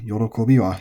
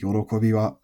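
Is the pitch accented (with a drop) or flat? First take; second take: accented; flat. First: The pitch drops within the word. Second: The pitch stays level with no drop. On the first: The speaker calls it wrong. "you don't say" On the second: The speaker calls it right. "which is flat"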